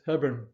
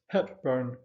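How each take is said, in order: First: The name is said without a p sound. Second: The name is said with a clear p sound. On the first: This is how the family's name is properly said. The speaker calls it right. "the correct pronunciation for the first family is Hebburn" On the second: This is how film fans would say the name. The speaker calls it wrong. "the Hollywood fans amongst you would pronounce this Hepburn"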